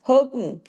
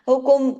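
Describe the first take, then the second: First: The final m is held firm without echo. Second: The final m is bounced with an echo. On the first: The speaker calls it right. "जमा देना" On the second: The speaker calls it wrong. "ऐसे नहीं कर देना"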